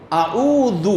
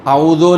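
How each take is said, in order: First: اعوذ ending in "u"; correct damma. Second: اعوذ ending in "o"; wrong vowel. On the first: Teacher reciting the surah properly, correct "u". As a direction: say اعوذ as "a'oodhu". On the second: Teacher showing the mistake, wrong "o". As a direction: say اعوذ as "a'oodho". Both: Shown as a demonstration. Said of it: "اعوذ نہیں".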